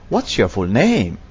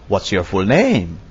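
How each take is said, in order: No difference in how they are said.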